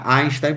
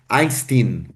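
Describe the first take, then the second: First: The name is pronounced with German sounds. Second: The name is pronounced with English sounds. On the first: "seria uma pronúncia alemã" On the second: "como se leria o nome em inglês"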